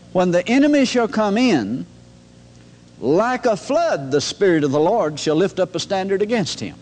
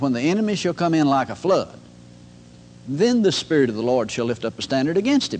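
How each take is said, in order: First: There is a pause before "like a flood". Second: There is a pause after "like a flood".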